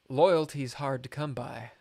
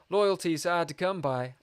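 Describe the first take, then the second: First: It is read in his plain own voice. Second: It is read in a put-on Cockney accent.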